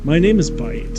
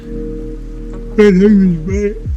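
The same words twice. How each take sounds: First: It is said clearly, without a yawn. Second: It is said through a yawn. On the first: The speaker calls it right. "without yawning" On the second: The speaker calls it wrong. "let me just say that again without yawning"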